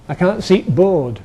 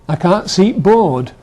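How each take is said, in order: The two takes are said the same way.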